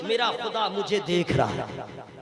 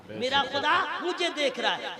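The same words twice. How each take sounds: First: Low, hushed conviction. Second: Said in the usual way. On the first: Shown as a demonstration. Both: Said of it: "ये ईमान रखिए".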